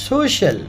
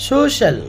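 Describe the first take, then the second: No difference in how they are said.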